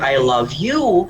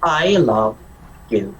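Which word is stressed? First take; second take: you; love. First: The stress is on the word you. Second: The stress is on the word love.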